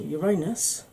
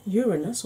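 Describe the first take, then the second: First: Uranus said yuh-RAY-nus; Uranus as your-AY-nus, middle syllable stressed; old-style Uranus. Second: Uranus said YOOR-uh-nus; Uranus as YOOR-uh-nus, first syllable stressed. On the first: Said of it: "as we used to call it". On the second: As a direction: lead on the first syllable of Uranus, reduce the middle. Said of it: "or as we used to call it". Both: Shown as a demonstration.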